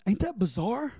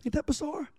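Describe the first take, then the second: First: Said in the usual way. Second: Ain't that bizarre said high and hushed; high, hushed amazement at the story; incredulous. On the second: Real, not acted. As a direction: let the disbelief lift it up and soften it. Preacher repeats for effect.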